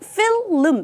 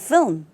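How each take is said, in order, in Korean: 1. L 소리가 하나 더 들어가서 두 번째 음절이 시작돼요. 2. L 소리는 하나만 나고, 부드럽게 M으로 이어져요. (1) "실제 필름 이렇게 발음하는 경우가 많거든요" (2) "발음을 부드럽게 하시면 film 이렇게 하셔야죠"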